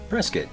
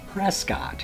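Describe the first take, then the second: First: The word is slurred together, reducing its sounds. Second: Every syllable of the word is said fully. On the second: "My favorite example in Arizona is"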